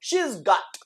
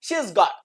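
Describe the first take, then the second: First: The word 'has' merges into 'she'. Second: The word 'has' is a separate syllable.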